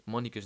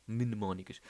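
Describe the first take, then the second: First: Mónicas said as a clipped slip, first syllable mne dropped; wrong word. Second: Mnemónicas said in full as mne-mó-ni-cas, the m and n both sounded; carefully spells out mnemónicas with its opening mne; correction. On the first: Podcaster trips on a hard word, saying mónicas. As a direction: stumbles into mónicas, missing the mne. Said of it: "mónicas não". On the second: Podcaster corrects himself, careful mnemónicas. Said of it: "mónicas não, mnemónicas". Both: Shown as a demonstration.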